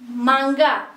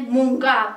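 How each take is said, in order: First: The first syllable has the vowel a. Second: The first syllable has the vowel u.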